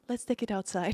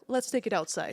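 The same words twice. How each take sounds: First: It sounds polite and friendly. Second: It sounds blunt and confrontational. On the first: A polite request to talk privately. The speaker calls it right. "with a little bit better, you know, attitude" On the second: A challenge to settle it out there. The speaker calls it wrong. "like me as a Russian, I want to say like"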